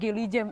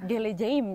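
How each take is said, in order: First: The word is said in a shortened, casual form. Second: The word is said in its full, formal form. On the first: This is the casual everyday way to say it. "Itu tuh kayak bahasa sokapnya mereka, bahasa santainya mereka" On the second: This is the formal textbook way to say it. "misalkan aku akan datang ya"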